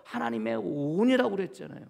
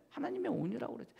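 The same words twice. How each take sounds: First: Said in the usual way. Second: 하나님의 온유라고 그랬죠 repeated much softer and quicker, rising on 하나님의. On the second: Shown as a demonstration. Preacher softly repeats his point when the congregation asks 네?, hushed. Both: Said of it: "네?".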